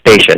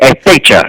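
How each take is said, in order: First: The name starts directly with the s sound. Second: The name starts with an added e sound. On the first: The speaker calls it right. "Mom, it's Stacia" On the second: The speaker calls it wrong. "my mom couldn't pronounce that right"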